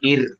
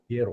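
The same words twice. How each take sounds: First: The r sound is thin and light. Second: The r sound is thick and heavy. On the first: The speaker calls it wrong. "Kalau nggak tebal kan ir" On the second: The speaker calls it right.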